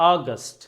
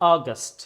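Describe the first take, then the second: First: The first vowel sounds like ah. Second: The first vowel sounds like ah.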